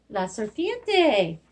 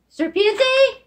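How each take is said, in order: First: Slow, careful repeat; slow modelling. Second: High, loud pronounced reveal; spring the answer on them; excited reveal. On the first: Teacher repeating the word for kids, slow and clear. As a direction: spell it out with your voice. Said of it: "teacher repeats word slowly". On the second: Teacher revealing the snake word to kids, high and loud. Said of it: "teacher models word after pause". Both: Shown as a demonstration.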